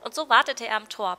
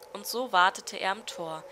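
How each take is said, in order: First: It is spoken in a put-on, bird-like voice. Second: It is spoken in an ordinary, non-bird voice. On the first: The speaker calls it right. "So stelle ich mir eine Stimme vor, von einem Vogel" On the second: The speaker calls it wrong. "falsche Stimme"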